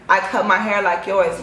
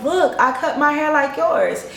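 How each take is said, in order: First: Said in the usual way. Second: Higher, eager show-and-tell; dazed delight. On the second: Retold or imitated. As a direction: proudly point at your own hair. Her dazed happy self showing off.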